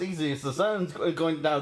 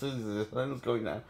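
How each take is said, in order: First: Said in the usual way. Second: Much softer and lower, quick soothing murmur; calm Bruce down softly, as to a spooked animal; soothing hush. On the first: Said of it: "And he says". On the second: Retold or imitated. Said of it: "that works on Bruce Banner when he says".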